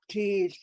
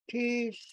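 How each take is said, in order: First: The word is said with a low tone. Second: The word is said with a high tone. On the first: It means a scar. "without the tone mark, you're saying a scar" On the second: It means shoes. "if you say it with a high tone, teeth, it's shoes"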